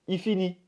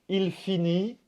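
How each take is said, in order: First: The L of the pronoun is dropped. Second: The L of the pronoun is clearly pronounced. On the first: "on va dire plutôt" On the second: "Au lieu de dire"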